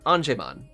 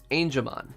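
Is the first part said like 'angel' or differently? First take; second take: differently; like angel. First: The first part does not sound like angel. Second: The first part sounds like the word angel. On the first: The speaker calls it wrong. "not Angemon" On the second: The speaker calls it right. "as in angel"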